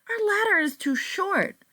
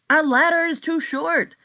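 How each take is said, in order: First: It is said in a less male voice. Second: It is said in a more male voice.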